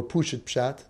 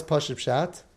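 First: "Pushit" with an "oo" first vowel; pronounced Pushit. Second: "Pashut" with an open "ah" first vowel; pronounced Pashut. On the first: Teacher offering the other community's reading, "Pushit" with "oo". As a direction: say "Pushit Pshat" with "poo" up front. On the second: Teacher offering one reading of the term, "Pashut" with "ah". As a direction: say "Pashut Pshat" with "pah" up front. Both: Shown as a demonstration. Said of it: "Depends which chair you're in here".

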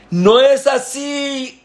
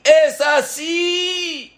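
First: Much higher, slow furious correction; rabbi shouting. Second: Even higher, slow shouted correction; rabbi shouting. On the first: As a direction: shout the cantor down mid-prayer. (el rabino grita, mucho más agudo y lento) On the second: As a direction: yell out how it should be done. (el rabino grita cómo se hace, muy agudo y lento) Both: Acted. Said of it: "Y empezó a gritar".

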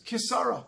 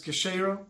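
First: Second reading, "Kisara", with s as in Sarah. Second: First reading, "Keshera", with a sh sound. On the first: The other reading of the letters, "Kisara" like Sarah. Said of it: "like Sarah". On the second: Eli could read the letters this way, "Keshera" with sh. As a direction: say "Keshera" distinctly, sh in the middle. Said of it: "he read it either as". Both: Shown as a demonstration.

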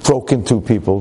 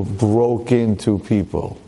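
First: Said in the usual way. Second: Broke into people said slowly with weight on broke; slow heavy repeat; slowed emphatic repeat. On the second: Shown as a demonstration.

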